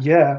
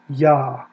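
First: The vowel is an 'eh' sound. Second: The vowel is an 'ah' sound. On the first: The speaker calls it wrong. "it's not Yeh, like short for Yehovah" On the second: The speaker calls it right. "it's Yah"

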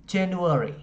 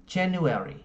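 The two takes are said the same way.

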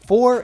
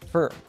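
First: The word is said with its full vowel. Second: The word is said with a reduced vowel. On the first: "For is pronounced as fur" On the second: "pronounced as fur"

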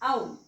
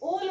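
First: The vowel sounds like 'ow' as in 'cow'. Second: The vowel sounds like a long 'oh'. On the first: The speaker calls it right. "तो उच्चार करायचा आहे आपल्याला आ" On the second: The speaker calls it wrong. "ओल वाचतो आपण, ओल नाही"

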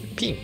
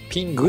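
First: The word ends cleanly without a 'gu' sound. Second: The word ends with an added 'gu' sound. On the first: The speaker calls it right. "ピンググは発音しないですね。" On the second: The speaker calls it wrong. "ピングではない"

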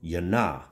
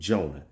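First: The name begins with a Y sound. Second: The name begins with a J sound. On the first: The speaker calls it right. "correctly pronounced in the Hebraic culture as Yonah" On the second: The speaker calls it wrong. "as we enunciated in our Western world culture"

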